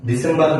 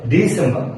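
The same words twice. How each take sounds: First: "ডিসেম্বর" evenly, Bangla style, with final r; wrong pronunciation. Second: "ডিসেম্বর" as di-SEM-ba, r silent; correct pronunciation. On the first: Teacher showing learners what to avoid, wrong pronunciation. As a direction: sound the r ending "ডিসেম্বর". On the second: Teacher modelling December for learners, correct pronunciation. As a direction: lift "ডিসেম্বর" and drop its final r. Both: Shown as a demonstration. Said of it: "ডিসেম্বর না ভাইয়া".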